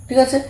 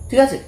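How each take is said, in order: Both takes have the same delivery.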